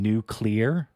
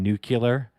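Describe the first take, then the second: First: Nuclear drawn out slowly as "noo-clear", rising at the end; deliberate nuclear. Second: Nuclear said as "NOO-kyoo-ler"; mispronounced nuclear. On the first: Streamer contrasting with nukular, slow "noo-clear" nuclear. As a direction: slowly spell out nuclear by sound, "clear" last. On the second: Streamer mocking bad pronunciation, nuclear as "nukular". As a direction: swap the sounds in nuclear to "nukular". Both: Shown as a demonstration. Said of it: "Wrong emphasis on the wrong syllable".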